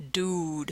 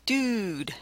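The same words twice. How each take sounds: First: "Dude" with a back oo, "dood"; softly isolated "Dude" with a back vowel; back-vowel pronunciation. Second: "Dude" with oo pushed forward, near "dyood"; softly isolated "Dude" with a fronted vowel; fronted-vowel pronunciation. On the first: Lecturer contrasting for listeners, "Dude" with a back oo. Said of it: "So the two possibilities here". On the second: Lecturer contrasting for listeners, "Dude" with a fronted oo. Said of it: "the other one is dude". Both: Shown as a demonstration.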